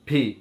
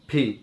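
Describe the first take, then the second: Both takes have the same delivery.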